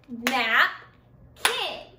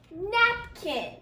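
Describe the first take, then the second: First: Lower, slow Napkin split into nap and kin; syllables clapped. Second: Napkin said as two beats; syllables clapped. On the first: Teacher to class, clapping out two syllables. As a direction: clap Napkin as two beats. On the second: Teacher to class, clapping two syllables. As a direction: clap Napkin nap, kin. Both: Shown as a demonstration. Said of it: "Napkin has two syllables".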